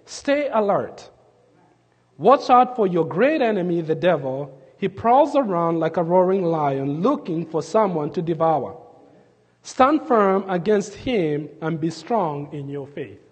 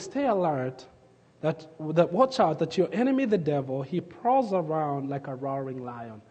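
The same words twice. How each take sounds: First: Scripture reading. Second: Hushed scripture quote. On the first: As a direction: read the verse out to the congregation, measured. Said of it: "Here's what he says". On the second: Preacher softly recalling the verse to the congregation, hushed. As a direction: lower the voice as you recall the warning. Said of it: "the Bible says". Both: Shown as a demonstration.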